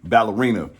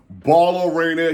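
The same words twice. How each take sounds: First: Said in the usual way. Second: Ballerina stretched out high and loud; exaggerated, slow, loud "Baaallerina"; playful pronunciation of Ballerina. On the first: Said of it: "or as I call it". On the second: Shown as a demonstration. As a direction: belt out Ballerina with drawn-out vowels. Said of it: "or as I call it, like to call it".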